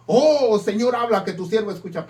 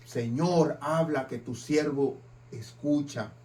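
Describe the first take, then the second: First: Loud "Oh", then rushed, fast eager plea; hammed-up greedy enthusiasm; eager prayer. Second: Softer, lower, grudging prayer; half-hearted quiet plea to the Lord; reluctant prayer. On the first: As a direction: jump at the chance of a million pesos. Eager prayer hoping for money. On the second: Pretend. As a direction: mumble it as if hoping not to hear. Reluctant prayer when unwelcome.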